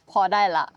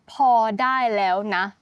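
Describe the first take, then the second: First: The phrase is said in a shortened form. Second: The phrase is said in its full form. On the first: "it can be shorter even shorter you can just say" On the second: "so just now I said พอได้แล้วนะ for that's enough"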